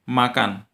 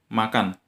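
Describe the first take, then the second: The two takes are said the same way.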